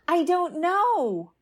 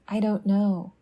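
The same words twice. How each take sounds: First: It is said sharply, with fear and agitation. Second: It is said calmly, as simple agreement. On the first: Not knowing feels frightening and urgent. "The fear, agitation, and escalating sharpness" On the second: Not knowing is accepted as okay. "simple agreement"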